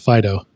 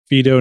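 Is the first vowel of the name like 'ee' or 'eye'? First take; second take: eye; ee. First: The first vowel is an 'eye' sound. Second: The first vowel is not an 'eye' sound. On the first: The speaker calls it wrong. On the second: The speaker calls it right.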